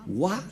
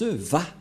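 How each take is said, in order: First: The syllable begins with a w sound. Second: The syllable begins with a v sound. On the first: The speaker calls it wrong. "ce n'est pas Wa la vraie prononciation" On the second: The speaker calls it right. "Les Juifs le prononcent Va"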